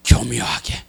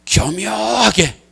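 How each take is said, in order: First: 교묘하게 dropped low and quiet; quiet, lowered 교묘하게; low and soft. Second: 교묘하게 stretched very slowly; slow, drawn-out 교묘하게. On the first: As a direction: murmur 교묘하게 under the breath. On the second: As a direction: linger on 교묘하게 syllable by syllable. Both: Shown as a demonstration.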